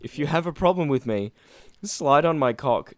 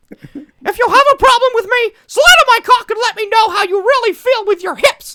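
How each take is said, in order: First: Said in the usual way. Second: Much higher, louder falsetto cartoon mouse; high falsetto mockery of a tweet; squeaky cartoon voice. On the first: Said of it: "plain read before voiced take". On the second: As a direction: read it like a squeaky Disney mouse. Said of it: "we should have done Mickey Mouse".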